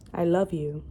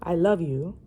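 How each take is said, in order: First: Said in the usual way. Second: "love" said louder with a rising tune; stress on love. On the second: Shown as a demonstration. Rereading the confession line to viewers, stress on love. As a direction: lean into "love" and lift it.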